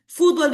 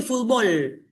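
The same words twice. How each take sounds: First: Fútbol with the weight on FÚT; stress on first syllable. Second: Fútbol said as "futBOL"; stress on last syllable. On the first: Teacher comparing countries, fútbol stressed on FÚT. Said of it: "nosotros lo usamos como grave". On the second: Teacher comparing countries, fútbol stressed on final BOL. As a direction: move the weight to BOL in fútbol. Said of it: "porque para ellos es aguda". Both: Shown as a demonstration.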